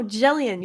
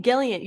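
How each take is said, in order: First: Jellion with a soft J sound as in jelly; Jellion, soft G pronounced J. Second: Gellion with a hard G as in get. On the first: Shown as a demonstration. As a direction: say Jellion starting with a soft J like jam. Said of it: "You're doing a hard G". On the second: Retold or imitated. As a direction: mimic the hard G in Gellion like gun. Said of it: "You're doing a hard G instead of a soft G".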